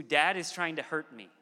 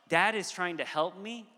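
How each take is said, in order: First: Falling, accusing tone on HURT; mistrustful child. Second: Lifted, open tone ending on a rise; trusting child. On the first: Son now suspecting his dad, lightly imitated accusation. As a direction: voice a child's suspicion, ending in a fall. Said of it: "It has moved from a". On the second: Son trusting that dad means well, higher and open. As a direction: voice a child's trust, raised in pitch. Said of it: "a posture of". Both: Retold or imitated.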